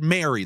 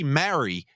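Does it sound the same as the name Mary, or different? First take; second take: same; different. First: It sounds the same as the name Mary. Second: It sounds different from the name Mary. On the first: The speaker calls it wrong. "you also said Mary, like the name" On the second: The speaker calls it right. "Then I'll say Mary. Then you'll say, oh, that's a New York accent"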